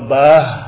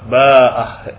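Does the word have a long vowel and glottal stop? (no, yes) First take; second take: no; yes. First: A short vowel goes straight into final h. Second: A long vowel and glottal stop come before final h. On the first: "dengan ha tanpa mad. Tanpa mad artinya tanpa hamzah" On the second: "Kalau alif dengan ba, ba'ah. Ini mad namanya"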